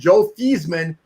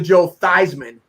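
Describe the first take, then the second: First: The surname does not rhyme with Heisman. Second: The surname rhymes with Heisman. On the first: This is the name's original pronunciation. "changed the pronunciation of a guy from" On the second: This is the pronunciation adopted to rhyme with the trophy. "it was Theismann for Heisman"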